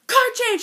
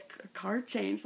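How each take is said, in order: First: High, loud shouted cry; shouting along. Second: Said in the usual way. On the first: Retold or imitated. Fan finally shouting the phrase with Cam. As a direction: belt it out as loud as you can.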